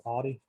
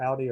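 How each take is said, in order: First: Audi said AW-dee; second variant pronunciation. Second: Audi said OW-dee; first variant pronunciation. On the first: Host comparing two ways people say Audi, second variant AW-dee. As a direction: say Audi with an AW vowel. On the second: Host comparing two ways people say Audi, first variant OW-dee. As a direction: say Audi with an OW vowel. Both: Shown as a demonstration. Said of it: "people call it either Audi or Audi".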